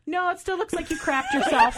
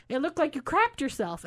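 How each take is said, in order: First: Laughing insistence. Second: Blurted out. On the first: Retells insisting while laughing. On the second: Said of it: "Did I just say that out loud?". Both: Retold or imitated.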